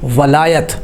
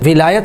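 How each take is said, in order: First: The first vowel is a. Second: The first vowel is i. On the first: The speaker calls it right. "ज़बर होती है" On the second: The speaker calls it wrong. "विलायत लफ्ज़ नहीं होता, वाव के नीचे ज़ेर नहीं होती"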